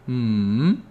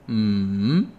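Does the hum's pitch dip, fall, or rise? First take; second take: dipping; dipping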